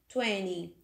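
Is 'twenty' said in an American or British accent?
American. It is said with an American accent. "os americanos pronunciam o 20"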